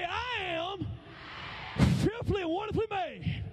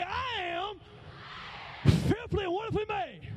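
First: High declaration for the crowd to repeat; leading a call-out. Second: High-pitched, sassy affirmation; proud, high call-out with sass; with attitude. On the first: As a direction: lead the room in a proud chant. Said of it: "Come on, say". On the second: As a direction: lead the women with some attitude. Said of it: "Say it with some attitude". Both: Shown as a demonstration.

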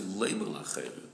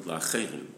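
First: Leimer punched harder than La'acherim; stress on Leimer. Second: La'acherim given the emphasis; stress on La'acherim. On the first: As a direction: hit Leimer, then let La'acherim follow. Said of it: "I'm emphasizing Leimer La'acherim". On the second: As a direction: lean on the word La'acherim. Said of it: "you're emphasizing the word La'acherim". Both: Shown as a demonstration.

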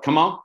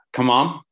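First: Higher, rising mock yell; short pitched-up cheer; retold yell. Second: Country-style coach's yell, lightly done; a touch of country in the cheer; mild country holler; country twang. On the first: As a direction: imitate the athlete's triumphant shout, half-scale. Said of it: "she yelled". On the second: Shown as a demonstration. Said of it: "I say it in kind of this country way".

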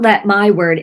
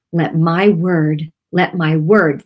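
First: "let my word" quicker, with the weight pushed onto "let"; misplaced emphasis. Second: "word" given slow, deliberate weight after "my"; stress on WORD. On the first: Host showing how it was not said, stressing "let". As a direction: hit "let" rather than "word". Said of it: "put the emphasis on the right syllables". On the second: Host showing how the Spirit said it, stressing "word". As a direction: lean evenly on "my word", slowly. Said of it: "That's how he said it". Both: Shown as a demonstration.

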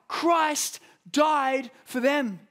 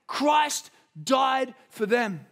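First: Christ died for them, even higher, very slow and loud; slow preached emphasis, rising. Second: Christ died for them, very slow, each word weighted, higher and louder; slow preached emphasis. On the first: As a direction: lift it higher the second time. Repeated preaching climax. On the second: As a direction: press every word home. Preaching climax, slowed. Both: Real, not acted.

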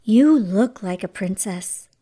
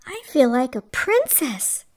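First: Lower, gently approving voice; smiling warmth. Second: Understated, sighing wonder; dreamy sigh. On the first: Fairy godmother admiring Cinderella's new dress, smiling warmth. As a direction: say it low with a smile. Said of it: "smiled her fairy godmother". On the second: Cinderella in her new dress and slippers, dreamy sigh. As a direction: sigh it with a touch of delight. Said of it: "sighed Cinderella". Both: A narrator's reading.

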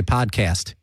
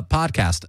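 First: PODCAST with a tensed "keh-ast"; Jersey vowel. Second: Said in the usual way. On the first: Shown as a demonstration. Host recalling old episodes, Jersey-style PODCAST. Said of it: "I would say podcast". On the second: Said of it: "same thing, even, even".

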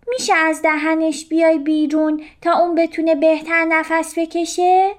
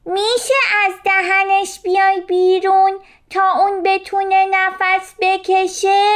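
First: Higher fish voice asking politely, quick; polite request. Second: Much higher, louder call to the jellyfish; louder shout. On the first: Little fish first asking the jellyfish politely. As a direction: ask nicely first, not yet shouting. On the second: Little fish shouting at the jellyfish a second time, louder. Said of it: "با صدای بلندتر فریاد زد". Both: A narrator's reading.

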